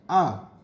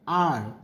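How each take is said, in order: First: It is said with a British accent. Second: It is said with an American accent.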